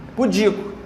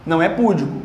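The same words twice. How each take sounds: First: Pudico stressed on DI, pu-DI-co; correct stress pudico. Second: Púdico stressed on PÚ, shown as the mistake; wrong stress púdico. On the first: Teacher correcting students: pu-DI-co. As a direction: say pudico as pu-DI-co, the right way. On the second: Teacher showing students the wrong púdico. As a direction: say púdico as PÚ-di-co to show the error. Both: Shown as a demonstration.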